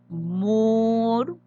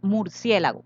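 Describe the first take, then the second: First: Murciélago muy lento, sílaba por sílaba; separado en sílabas. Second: Said in the usual way. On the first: Shown as a demonstration. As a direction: alargar cada sílaba: mur-cié-la-go, con pausas. (murciélago dividido en cuatro golpes lentos) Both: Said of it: "Vamos a dividir murciélago".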